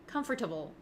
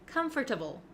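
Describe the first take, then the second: First: Every syllable is pronounced fully, like com-for-table. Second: The same.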